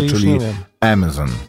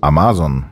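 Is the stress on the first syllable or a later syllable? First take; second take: first syllable; later syllable. First: The stress is on the first syllable. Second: The stress is not on the first syllable. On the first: "akcent na pierwszą syllabę" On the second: "czytamy, jakbyście czytali po polsku"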